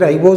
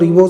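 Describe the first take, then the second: First: The first syllable has the vowel 'rye'. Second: The first syllable has the vowel 'ree'. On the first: "कुछ लोग इसको राइबोज भी बोलते हैं" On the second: "RNA को हम सीधा बोलेंगे, रिबोज"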